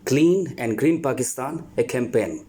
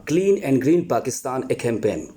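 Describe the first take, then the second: Both takes have the same delivery.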